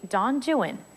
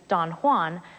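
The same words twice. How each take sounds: First: Juan is said the English way, rhyming with 'true one'. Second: Juan is said the Spanish way, like wahn. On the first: The speaker calls it right. "rhyme Juan with true one and new one" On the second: The speaker calls it wrong. "the familiar Spanish pronunciation"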